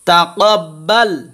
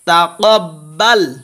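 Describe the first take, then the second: Both takes have the same delivery.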